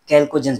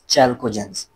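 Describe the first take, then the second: First: The word begins with a 'k' sound. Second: The word begins with a 'ch' sound. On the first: "या आप लोग इसको कैल्कोजेंस भी pronounce कर सकते हैं" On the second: "हमारे पास चैल्कोजेंस"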